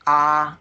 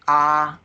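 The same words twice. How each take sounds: First: It is held on a high, level pitch. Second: It is held on a high, level pitch.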